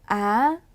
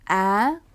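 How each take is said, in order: First: The pitch goes high and rises. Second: The pitch goes high and rises.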